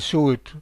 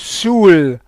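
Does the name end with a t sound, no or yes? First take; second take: yes; no. First: The name ends with a final t sound. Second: The name ends without a final t sound. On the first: This is how the speaker personally says it. "I say Soult" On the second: This is how the local people say it. "they pronounce it Soul, like someone who is drunk"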